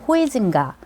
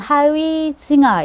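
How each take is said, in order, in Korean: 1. 이름은 'hoi'로 시작하고 'ga'로 끝납니다. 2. 이름은 'ha-wi'로 시작하고 'ha'로 끝납니다. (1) "옛날 발음으로" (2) "요즘은"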